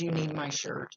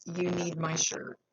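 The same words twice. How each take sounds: First: Said in the usual way. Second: "You" leaned on, slower delivery; stress on you. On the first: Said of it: "he says". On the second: Retold or imitated. Medium repeating the message, "You" stressed, slower. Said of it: "He says".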